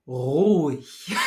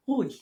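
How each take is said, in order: First: "ruhig" with a strong rolled uvular r; dramatic trilled r. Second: Said in the usual way. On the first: Shown as a demonstration. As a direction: roll the r in "ruhig" hard and slow. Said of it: "if you're being kind of dramatic". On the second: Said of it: "as opposed to ruhig".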